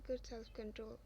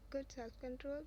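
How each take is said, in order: First: Said in the usual way. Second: "Good self-control?" rising at the end; echo question. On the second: A narrator's reading. Friend echoes it as question.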